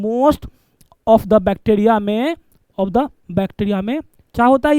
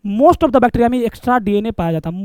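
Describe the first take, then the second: First: Most of the bacteria dragged out word by word, rising; teacher slowing right down to repeat most of the bacteria; slow dictation. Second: Said in the usual way. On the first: Shown as a demonstration. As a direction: stretch each word so students can write it down. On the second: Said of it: "teacher explaining plasmids".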